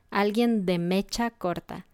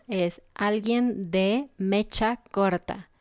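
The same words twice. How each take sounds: First: Said in the usual way. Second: "es alguien de mecha corta" said slowly, word by word; slow clear teaching. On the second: Shown as a demonstration. Teacher to students, slow careful phrase.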